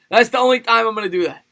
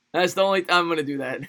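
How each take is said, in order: First: High put-on Chinese accent; mock Chinese accent. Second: Said in the usual way. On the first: Puts on the requested accent once more.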